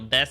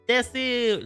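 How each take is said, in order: First: The final vowel is dropped, ending in s. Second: The final u vowel is drawn out long. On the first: This is the ordinary everyday way to say it. "des is the usual pronunciation" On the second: It sounds cuter and suits a playful character. "to extend the u part of it"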